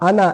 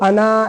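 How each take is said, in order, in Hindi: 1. आख़िरी स्वर छोटा और जल्दी बोला जाता है। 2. आख़िरी स्वर को खींचकर लंबा बोला जाता है। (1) "जल्दी पढ़ेंगे" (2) "ऐसे खींच के नहीं बोलेंगे"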